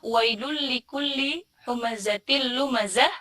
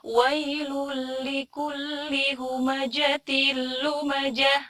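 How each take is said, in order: First: The consonant in humazah is a z sound. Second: The consonant in humazah is a j sound. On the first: The speaker calls it right. "Harusnya zai bukan jim" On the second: The speaker calls it wrong. "jadi jim deh padahal bukan jim"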